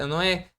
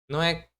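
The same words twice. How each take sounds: No difference in how they are said.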